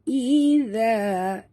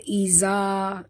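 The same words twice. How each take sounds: First: The middle consonant is a soft tongue-tip z. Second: The middle consonant is a plain buzzing z. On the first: The speaker calls it right. "ini bunyi zal lembut" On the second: The speaker calls it wrong. "jangan baca iza, itu bunyi zai"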